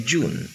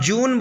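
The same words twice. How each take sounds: First: जून with the final n cut to a half sound; English pronunciation. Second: जून with the final n said in full; Hindi pronunciation. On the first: Teacher explains the half n to learners, English pronunciation. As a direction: let the n of जून fade, half said. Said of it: "ना को आधा कर देते हैं". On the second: Teacher explains the full n to learners, Hindi pronunciation. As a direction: sound the whole n at the end of जून. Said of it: "ना पूरा बोला जाता है". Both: Shown as a demonstration.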